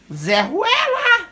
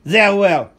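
First: Very high, slow squawk of a parrot. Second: Said in the usual way. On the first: Pretend. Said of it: "Fala, fala, louro". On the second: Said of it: "Eu falo".

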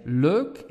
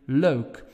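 First: "leuk" with a pure eu vowel; Flemish leuk. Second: "leuk" more open and gliding; Dutch leuk. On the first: Teacher demos the Belgian leuk. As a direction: keep the vowel steady. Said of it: "In Belgium, we say". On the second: Teacher demos the Netherlands leuk. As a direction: open the eu a little. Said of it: "In the Netherlands, you will hear". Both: Shown as a demonstration.

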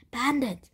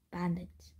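First: Loud, higher warning cry; shouted alarm. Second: Said in the usual way. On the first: A narrator's reading. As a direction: call out the danger, pitched up. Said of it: "one of the camel's ... drivers shouted".

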